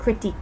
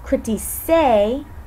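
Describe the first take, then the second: First: The consonant before the final vowel is hard. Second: The consonant before the final vowel is soft. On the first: The speaker calls it right. "We want it to sound like a hard C" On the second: The speaker calls it wrong. "the pronunciation changes when we add an E to the stem"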